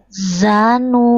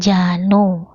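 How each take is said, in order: First: The word begins with a z sound. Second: The word begins with a j sound. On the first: The speaker calls it right. "Ujung lidah bukan tengah lidah" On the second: The speaker calls it wrong.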